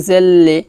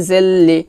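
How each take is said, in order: Both takes have the same delivery.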